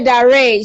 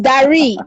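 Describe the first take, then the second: First: The name has one syllable, rhyming with 'air'. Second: The name has two syllables, ending in 'ee'. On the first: The speaker calls it wrong. "Don't say Dare. She will not understand" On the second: The speaker calls it right. "it's Dari"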